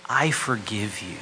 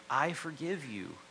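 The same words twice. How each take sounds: First: Slow, loud and heartfelt; tender forgiveness. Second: Said in the usual way. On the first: Shown as a demonstration. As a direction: give the words full weight, slowly. Preacher voices key gospel words.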